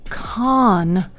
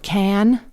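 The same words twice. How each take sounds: First: The name is pronounced the French way. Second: The name is pronounced the English way.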